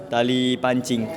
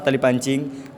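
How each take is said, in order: First: Said in the usual way. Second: "tali pancing?" rising at the end as a question; questioning tune. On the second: Shown as a demonstration. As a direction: ask "tali pancing?" with the pitch going up on "pancing". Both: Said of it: "Kenapa pa-, tali pancing?".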